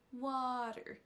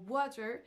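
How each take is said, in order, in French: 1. L'accent est sur la première syllabe. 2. Les deux syllabes sont prononcées avec le même accent. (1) "Il y a une des deux syllabes qui va ressortir plus que l'autre, et c'est la première" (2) "si on le prononce à la française ... les deux syllabes avec la même intensité"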